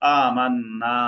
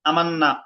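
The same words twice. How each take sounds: First: The final vowel is drawn out long. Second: The final vowel is cut short. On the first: The speaker calls it right. "এক আলিফ টেনে পড়তে হবে।" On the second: The speaker calls it wrong. "আমান্না এভাবে পড়া যাবে না"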